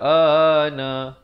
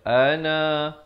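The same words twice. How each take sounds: First: The first vowel is held for two counts. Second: The first vowel is held for one count. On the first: The speaker calls it wrong. "jangan kita baca ana" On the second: The speaker calls it right. "dia kena baca ana"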